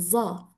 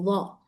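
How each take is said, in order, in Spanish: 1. La letra empieza con un sonido Z vibrante. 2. La letra empieza con un sonido Dh fuerte. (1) "la mayoría de los países la dicen como Za" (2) "pero en Arabia Saudí, al ser acento fuerte, la dicen como Dha"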